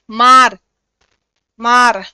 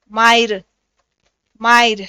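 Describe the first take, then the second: First: मार with a plain long aa; Hindi मार. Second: मायर with a y glide after aa; Nagpuri मायर. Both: Shown as a demonstration. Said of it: "Nagpuri में कैसे बोलते हैं".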